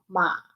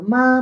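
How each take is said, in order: First: The pitch falls and then rises. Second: The pitch stays high and level. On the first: It means horse. "en tercer tono ma" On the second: It means mother. "en primer tono ma"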